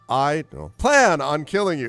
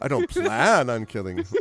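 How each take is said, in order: First: Don't is swallowed so it is barely heard. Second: Plan is stressed and don't is clearly said.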